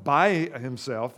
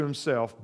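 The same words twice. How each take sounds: First: By stretched out slowly and louder; by himself drawn out with weight on by; stress on by. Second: Said in the usual way. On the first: Shown as a demonstration. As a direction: lean hard on by, slow.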